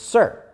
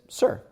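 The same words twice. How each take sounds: First: It is said somewhat louder. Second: It is said at a quiet, normal level.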